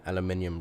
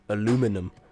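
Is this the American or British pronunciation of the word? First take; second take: British; American. First: The word is said the British way. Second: The word is said the American way. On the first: The speaker calls it right. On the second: The speaker calls it wrong.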